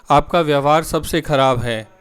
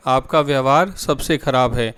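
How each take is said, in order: Both takes have the same delivery.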